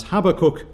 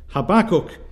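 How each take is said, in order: First: HAB-akkuk, with the first syllable of Habakkuk stressed. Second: Ha-BAK-kuk, with the second syllable of Habakkuk stressed. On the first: Preacher showing his old pronunciation, Habakkuk stressed on HAB. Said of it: "with emphasis on the first syllable". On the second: Preacher showing the corrected name, Habakkuk stressed on BAK. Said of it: "emphasis is supposed to be upon the second syllable". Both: Shown as a demonstration.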